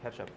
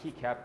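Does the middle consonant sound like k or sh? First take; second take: sh; k. First: The middle consonant is a sh-like sound. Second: The middle consonant is a hard k sound. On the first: The speaker calls it right. "the C is pronounced with that sh sound" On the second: The speaker calls it wrong. "you almost want to pronounce keycap with the way it's spelled"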